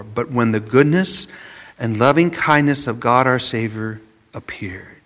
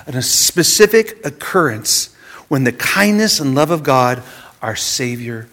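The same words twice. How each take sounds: First: Hushed whisper, barely voiced; whispered scripture. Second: Said in the usual way. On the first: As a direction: breathe the verse out like a secret. Reading the Titus verse, hushed. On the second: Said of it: "See, our redemption".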